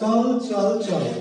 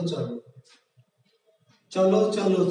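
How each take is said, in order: First: Each word ends on a bare consonant sound. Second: Each word ends with an added o vowel. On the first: "হস দিয়ে কি হচ্ছে শব্দটা চল চল চল" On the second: "হস না দেই তাহলে উচ্চারণটা হয় কি চলো চলো চলো"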